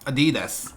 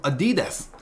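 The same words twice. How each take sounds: First: The stress is on the second syllable. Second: The stress is not on the second syllable. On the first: The speaker calls it right. "강세가 두 번째 음절 여기에 와요" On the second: The speaker calls it wrong. "아디다스가 아니고"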